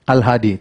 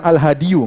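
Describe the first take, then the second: First: "Al-hadi" ending on a long i, no -yu; low, settled "Al-hadi" stopping on the i; correct bare ending. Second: "al-hadiyu" with an extra -yu ending; wrong added ending. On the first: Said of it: "nggak bilang al-hadiyu, nggak". ("Al-hadi" berakhir bunyi i, tanpa -yu) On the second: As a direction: sound out the u at the end of "al-hadiyu". ("al-hadiyu" dengan akhiran -yu yang keliru) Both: Shown as a demonstration.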